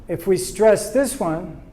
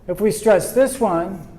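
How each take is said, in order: Both takes have the same delivery.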